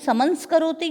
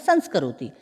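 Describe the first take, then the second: First: The word begins with an extra syllable, 'saman'. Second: The word begins directly with 'sans'. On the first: The speaker calls it wrong. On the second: The speaker calls it right.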